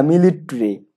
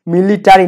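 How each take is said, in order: First: মিলিটারি with no vowel between t and r; contracted "mi-lit-ri". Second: মিলিটারি with a full "ta"; mispronounced "mi-li-ta-ri". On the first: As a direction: say মিলিটারি as three syllables, mi-lit-ri. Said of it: "আমরা এই উচ্চারণটা ভুল করি". (মিলিটারি, "টা" বাদ দিয়ে "মিলিট-রি") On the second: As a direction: say মিলিটারি in four syllables, mi-li-ta-ri. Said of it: "মিলিটারি না". (মিলিটারি, স্পষ্ট "টা" দিয়ে) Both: Shown as a demonstration.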